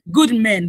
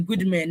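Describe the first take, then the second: First: Good men, with Good punched loud; Good said louder and firmer; stress on good. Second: Said in the usual way. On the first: Shown as a demonstration. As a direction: lean hard on the word Good. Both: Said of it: "let me adjectify".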